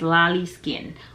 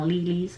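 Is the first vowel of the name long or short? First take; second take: short; long. First: The first vowel of the name is short. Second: The first vowel of the name is drawn out long. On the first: The speaker calls it right. "but it's Lolly Skin" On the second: The speaker calls it wrong. "I was saying it long"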